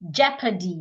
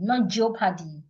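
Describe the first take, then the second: First: The first vowel is the short 'eh' sound. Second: The first vowel is not the 'eh' sound. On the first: The speaker calls it right. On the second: The speaker calls it wrong.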